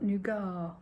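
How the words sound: Nougat is said in a non-American way. "We call it nougat because we're posh"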